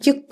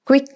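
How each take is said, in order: First: It begins with a kyu sound. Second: It begins with a kw sound. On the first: The speaker calls it wrong. "ക്യുക്ക് എന്ന് പറയരുത്" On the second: The speaker calls it right. "ക്വിക്ക് എന്ന് പറഞ്ഞാൽ"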